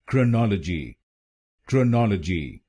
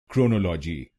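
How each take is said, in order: First: क्रोनोलॉजी as krə-NO-lə-ji, schwa in first syllable; correct pronunciation. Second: क्रोनोलॉजी as kro-no-LO-ji, full o vowels; the wrong Indian way: क्रोनोलॉजी, kro-no-lo-ji; common wrong pronunciation. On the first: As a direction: model क्रोनोलॉजी clearly: krə-nɔl-ə-ji. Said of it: "इसकी सही pronunciation है". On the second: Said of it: "इस शब्द को गलत बोलते हैं". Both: Shown as a demonstration.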